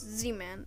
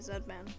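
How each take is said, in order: First: The letter Z is pronounced as zee. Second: The letter Z is pronounced as zed. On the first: The speaker calls it right. "it's Z-Man" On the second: The speaker calls it wrong. "don't say Zedman, because it's not Zedman"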